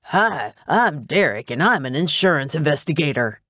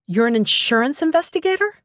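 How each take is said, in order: First: Self-mocking wimp introducing himself; wimpy voice. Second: High, rising incredulous question; surprised question. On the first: Investigator mocks his own job title, wimpy voice. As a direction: put on a wimpy little voice, bobbing up in pitch. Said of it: "With a wimpy voice". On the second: Assistant learns her boss's job, incredulous. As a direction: question it in disbelief, climbing to the end. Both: A narrator's reading.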